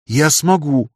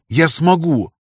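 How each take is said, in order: First: Stubborn. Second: Stubborn insistence. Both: A narrator's reading. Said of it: "упрямо произнёс я".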